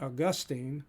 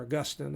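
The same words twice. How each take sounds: First: Put-on "Augustine" ending in a long -teen; AW-gus-teen pronunciation. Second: "Augustine" stressed on GUS, short -tin; uh-GUS-tin pronunciation. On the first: Teacher naming the theologian to class, "Augustine" as AW-gus-teen. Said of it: "I've heard it both ways". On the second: Teacher offering the other pronunciation, "Augustine" as uh-GUS-tin. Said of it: "however you pr-, want to pronounce it". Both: Shown as a demonstration.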